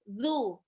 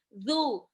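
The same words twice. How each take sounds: Both takes have the same delivery.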